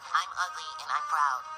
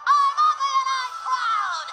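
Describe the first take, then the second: First: It is said at a normal, quieter volume. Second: It is shouted very loudly.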